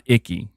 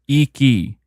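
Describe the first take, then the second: First: The first vowel is a short ih sound. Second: The first vowel is a long ee sound. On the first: The speaker calls it wrong. "not Icky" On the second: The speaker calls it right. "I is pronounced E, like E E. So it's Iki"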